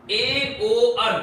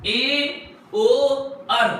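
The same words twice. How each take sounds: First: Slow drill. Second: Said in the usual way. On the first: Shown as a demonstration. Teacher making students memorise the trick, very slow. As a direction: spell out ए, ओ, आर one by one slowly. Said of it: "इसमें एकदम बिल्कुल ध्यान रखेंगे". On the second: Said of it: "याद करने का तरीका ये है".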